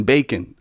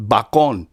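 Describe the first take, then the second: First: Said in the usual way. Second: "bacon" said as bah-KON, Spanish vowels; Spanish-style bacon. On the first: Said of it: "as in bacon". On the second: Shown as a demonstration. Owning up to saying it wrong, "bacon" mispronounced Spanish-style as bah-KON. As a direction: stress the second syllable of "bacon", bah-KON. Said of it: "I've been saying this wrong".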